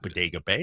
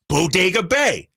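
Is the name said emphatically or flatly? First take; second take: flatly; emphatically. First: The name is said flatly, without emphasis. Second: The name is said with lively, strong emphasis. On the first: The speaker calls it wrong. "That does that sounds boring" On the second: The speaker calls it right. "we emphasize Bodega Bay"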